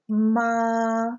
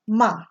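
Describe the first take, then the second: First: The pitch stays high and level. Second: The pitch falls sharply like a command. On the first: "the first tone, you almost say it like someone singing a pitch in a choir. You just kind of hold it" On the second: "Fourth tone is a sharp, definitely"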